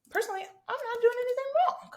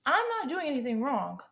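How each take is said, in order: First: Very high, louder, put-on innocence; high-pitched protest. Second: Insistent, starting high and falling; insistent protest. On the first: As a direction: protest way up in a squeaky register. Playful self-defence, then repeated. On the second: Acted. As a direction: restate the defence firmly, pitched up. Repeats self-defence less squeakily.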